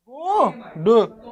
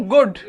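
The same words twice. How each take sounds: First: गुड absurdly split into a long गु and a short ड; wrongly broken word. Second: Said in the usual way. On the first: Shown as a demonstration. Teacher joking how not to break it, गुड pulled apart as गूऊ - ड. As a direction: stretch the vowel of गुड, pause, drop a separate ड. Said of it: "ऐसे तो नहीं तोड़ सकते". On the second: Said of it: "अब इसको हम ऐसे तो नहीं".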